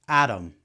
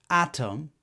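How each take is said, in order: First: The middle consonant is a quick tap sound. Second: The middle consonant is a clear T sound.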